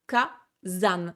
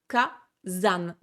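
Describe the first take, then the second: First: The middle consonant is a buzzing z sound. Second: The middle consonant is a buzzing z sound.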